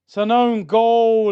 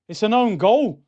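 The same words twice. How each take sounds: First: "own" leaned on, louder and slower; stress on own. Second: Said in the usual way. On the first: Real, not acted. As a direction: insist it's an own goal.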